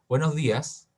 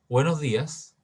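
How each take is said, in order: The two takes are said the same way.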